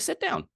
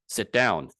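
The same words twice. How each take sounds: First: It is said in a warm, welcoming tone. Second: It is said in a hard, threatening tone. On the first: The listener is made to feel welcome. "in a very welcoming way" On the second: The listener is being threatened. "in a way that can be threatening"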